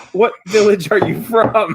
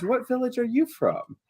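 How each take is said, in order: First: Raised, louder voice about to laugh; lightly voiced curious wife, amused; villager wife's question. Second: High, soft curious wife; softly inquisitive, pitched up; villager wife's question. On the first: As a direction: ask brightly, a laugh close behind. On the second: Acted. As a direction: ask gently in a raised, quiet voice. Wife's question, redone in character.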